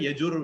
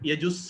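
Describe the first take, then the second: First: The word ends in an r sound. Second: The word ends in an s sound. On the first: The next word is Veda. "யஜுர் சொன்னா வேதம்ங்கிற வார்த்தை தொடர்ந்து வரும்" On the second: The next word is Sama. "யஜுஸ் சொன்னா சாமம் தொடர்ந்து வரும்"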